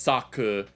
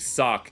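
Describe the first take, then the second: First: The final vowel is pronounced as a full syllable. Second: The final vowel is dropped, leaving one syllable. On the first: "syllable for syllable, it's Saku" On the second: "the way they pronounce it would be Sak"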